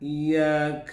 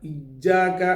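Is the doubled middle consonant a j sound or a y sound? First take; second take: y sound; j sound. First: The doubled middle consonant is a y sound. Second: The doubled middle consonant is a j sound. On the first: The speaker calls it right. "അത് യാണ്" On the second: The speaker calls it wrong. "ഇജ്ജാക എന്ന് പറയരുത്"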